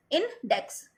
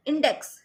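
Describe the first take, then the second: First: index in two separate beats, in, dex; broken into syllables. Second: Said in the usual way. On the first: Shown as a demonstration. Teacher showing two-syllable words, broken into syllables. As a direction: leave a gap between in and dex in index. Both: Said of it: "दो syllable वाले words".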